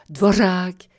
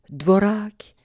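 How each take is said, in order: First: The r is a trill with a hiss. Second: The r is a plain tongue-tip trill. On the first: "en rehaussant la langue... Ça va chointer tout seul" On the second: "vous prononcez le R à l'italienne"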